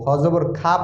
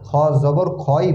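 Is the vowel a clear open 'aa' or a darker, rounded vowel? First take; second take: open aa; darker rounded. First: The vowel is a clear, open 'aa' sound. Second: The vowel is darker and more rounded, not open 'aa'. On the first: The speaker calls it wrong. "খ জবর খা পড়বো না, তাহলে এটা ভুল হবে" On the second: The speaker calls it right. "আকার সহ পড়বো না, খ জবর খই পড়বো"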